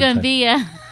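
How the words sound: It is said in a Southern American accent. "Just give it the good southern"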